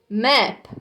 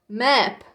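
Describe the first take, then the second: First: The word stops sharply on the final p. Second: The word stops sharply on the final p.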